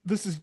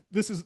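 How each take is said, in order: Both takes have the same delivery.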